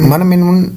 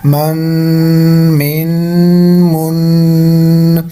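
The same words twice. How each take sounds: First: The final n is short, with no nasal lengthening. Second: The final n is drawn out through the nose. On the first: The speaker calls it wrong. "ऐसे नहीं करेंगे" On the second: The speaker calls it right. "नाक के अंदर थोड़ा सा लंबा करेंगे"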